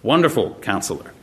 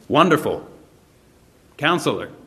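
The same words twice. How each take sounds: First: The two words run together without a pause. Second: There is a pause between the two words.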